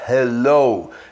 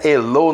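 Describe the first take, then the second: First: It begins with a breathy H sound. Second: It begins without a breathy H sound. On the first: The speaker calls it right. "é hello. É o H aspirado" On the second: The speaker calls it wrong. "não é hello"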